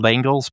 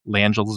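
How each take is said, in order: First: The name is pronounced the way it is spelled. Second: The name is pronounced the French way. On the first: The speaker calls it wrong. "it's spelled Langels" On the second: The speaker calls it right. "it's a French name, so Langels apparently is the correct pronunciation"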